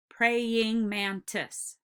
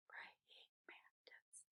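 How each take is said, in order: First: Praying mantis stretched into four slow beats; Praying mantis chanted slowly, each syllable held. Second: Barely audible slow whisper; very soft, unvoiced sounding-out; whispered syllable count. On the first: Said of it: "tap each syllable". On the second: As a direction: whisper Praying mantis slowly, beat by beat. Quiet recount of the syllables. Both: Shown as a demonstration.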